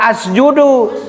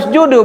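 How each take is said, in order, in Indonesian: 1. Kata ini diawali dengan vokal 'a'. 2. Kata ini diawali dengan vokal 'u'. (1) "jangan dibaca asjudu" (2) "Kenapa dibaca usjudu"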